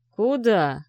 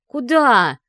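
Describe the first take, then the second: First: Said in the usual way. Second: Loud, higher snapped question; displeased bark. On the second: Acted. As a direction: snap it after her angrily. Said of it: "Ви недовольно рявкнула вслед".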